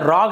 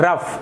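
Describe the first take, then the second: First: The word ends with a G sound. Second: The word ends with an F sound. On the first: The speaker calls it wrong. "रॉग नहीं पढ़ेंगे" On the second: The speaker calls it right. "जो सही उच्चारण होता है वो होता है रफ"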